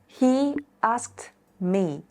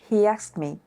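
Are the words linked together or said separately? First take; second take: separate; linked. First: The words are said separately. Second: The words run together smoothly.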